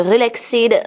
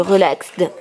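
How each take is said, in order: First: Relaxed with the -ed sounded as its own syllable; French-accented Relaxed, ending in a clear "ed"; unsure English pronunciation. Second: Relaxed with the ending shortened to "ksd"; French-accented Relaxed, no separate -ed syllable; second pronunciation attempt. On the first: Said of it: "Mon accent anglais est très nul". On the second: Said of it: "Je sais pas trop comment". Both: Shown as a demonstration.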